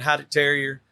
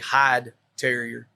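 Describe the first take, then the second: First: The name is said with a German pronunciation. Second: The name is said with an American pronunciation. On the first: This is the original pronunciation most listeners won't understand. "he would pronounce it correctly" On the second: This is the form American listeners understand. "Nobody understands what you're saying"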